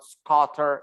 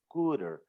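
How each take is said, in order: First: The first vowel is not an oo sound. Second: The first vowel is a long oo sound. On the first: The speaker calls it wrong. "it's not" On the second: The speaker calls it right. "scooter is the oo sound"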